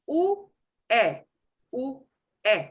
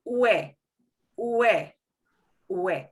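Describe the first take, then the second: First: U, e as two separate sounds, OO then EH; vowels sounded separately. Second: Ue as one gliding WEH; vowels run together. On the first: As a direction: break u and e apart with a pause. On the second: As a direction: slide u straight into e. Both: Shown as a demonstration. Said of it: "two vowels that run together".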